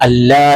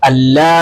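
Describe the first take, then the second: The two takes are said the same way.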